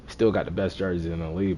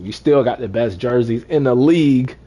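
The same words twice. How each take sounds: First: Said in the usual way. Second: Emphatic. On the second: Real, not acted. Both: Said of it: "Don't get it twisted".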